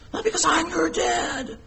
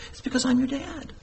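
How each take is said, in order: First: High, strained parody of a bossy father; mock authoritarian dad. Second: Soft, higher-pitched gentle 'I'm your dad'; tender fatherly reason. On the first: Father pulling rank on his children, mock authoritarian. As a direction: pull rank in a pitched-up mock-stern voice. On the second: Father telling children why to obey, tender and soft. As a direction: reassure softly, as a loving parent. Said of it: "But we have a relationship". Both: Shown as a demonstration.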